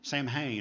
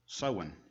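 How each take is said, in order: First: The first syllable sounds like 'sam'. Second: The first syllable sounds like 'sow'. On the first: The speaker calls it wrong. "you think that'd be Samhain or something like that" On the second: The speaker calls it right. "It's actually pronounced Sowen"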